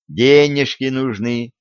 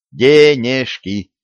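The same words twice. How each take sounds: First: Said in the usual way. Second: "Денежки" spelt out slowly, each syllable clipped apart. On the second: Acted. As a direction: hammer out "Денежки" one syllable at a time. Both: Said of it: "По слогам отчеканил".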